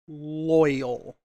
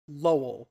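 First: The word has two clear syllables like 'loy-al'. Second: The word is squeezed into one syllable like 'Lowell'. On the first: The speaker calls it right. "Instead of saying loyal" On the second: The speaker calls it wrong. "Taz cannot say the word loyal. Says that Tori is quote unquote Lowell"

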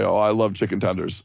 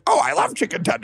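First: It is said in his normal voice. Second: It is said in a mocking, stupid voice.

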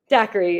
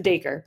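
First: The name is said like the drink daiquiri. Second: The name is said as short 'day-ker'. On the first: The speaker calls it wrong. "Daiquiri, if you're American, I guess" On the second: The speaker calls it right. "In British English, it is said as Daker"

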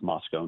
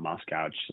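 First: The name ends with an 'oh' sound. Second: The name ends with an 'ow' sound. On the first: The speaker calls it right. "it's pronounced Moscow" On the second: The speaker calls it wrong. "not Moscow"

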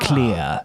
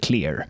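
First: The final R sound is dropped. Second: The final R sound is pronounced.

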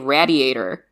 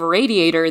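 First: It is said the Philadelphia way, like 'gladiator'. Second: It is said the usual American way, 'ray-diator'.

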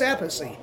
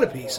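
First: The name has an Italian-style pronunciation. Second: The name has an anglicized, English-style pronunciation. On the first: The name keeps its original Italian form. The speaker calls it right. "which is the way it should have been pronounced" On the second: The name is simplified to sound easier and familiar. The speaker calls it wrong. "I'm not going to call it Appice. It's not Appice"

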